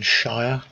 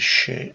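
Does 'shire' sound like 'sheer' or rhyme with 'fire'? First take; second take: fire; sheer. First: The word rhymes with 'fire'. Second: The word sounds like 'sheer'. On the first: "rather than shire" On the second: "Being English, I tend to pronounce it as shire"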